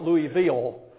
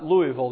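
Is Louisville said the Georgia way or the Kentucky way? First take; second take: Georgia; Kentucky. First: Louisville is said the speaker's Georgia way. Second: Louisville is said the local Kentucky way. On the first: The speaker calls it wrong. "as we say back home" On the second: The speaker calls it right. "not Louisville, as we say back home"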